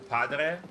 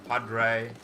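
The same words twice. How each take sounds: First: It is said without an American accent. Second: It is said with an American accent.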